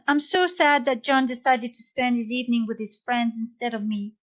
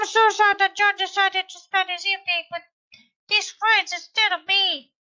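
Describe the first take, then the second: First: It is said in the speaker's normal voice. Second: It is said in a high-pitched Donald Duck voice.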